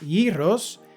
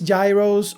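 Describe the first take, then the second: First: The word is pronounced the Greek way. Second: The word is pronounced the usual English way.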